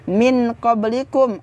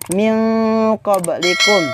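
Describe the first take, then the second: First: The n is pronounced clearly before q. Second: The n is hidden and nasalized before q. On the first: The speaker calls it wrong. "bukan dibaca" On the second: The speaker calls it right. "harus dibaca samar-samar dan juga harus didengungkan"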